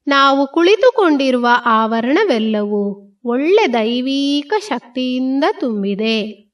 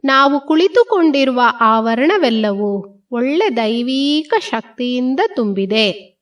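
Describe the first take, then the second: No difference in how they are said.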